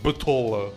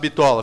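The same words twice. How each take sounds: First: The word is said with an English accent. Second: The word is said with a plain Brazilian accent. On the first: The speaker calls it wrong. "fica falando bitola" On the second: The speaker calls it right. "aquele cara que não consegue falar bitola"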